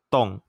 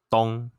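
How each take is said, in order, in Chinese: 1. 音高从高处下降。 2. 音高居中而平。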